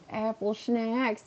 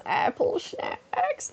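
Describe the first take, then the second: First: Slow, soft, slightly high silly voice; silly schnacks voice. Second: Very high, breaking, drawn-out squeak; exaggerated silly voice. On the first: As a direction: draw the words out softly, playfully. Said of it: "exactly how I would say it". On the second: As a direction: stretch it slowly into a silly falsetto. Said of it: "That's exactly how I would say it". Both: Shown as a demonstration.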